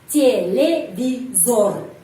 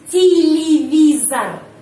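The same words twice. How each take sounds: First: The final vowel is a full 'o' sound. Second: The final vowel is reduced to an 'a' sound. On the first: The speaker calls it wrong. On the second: The speaker calls it right. "Harus televizor"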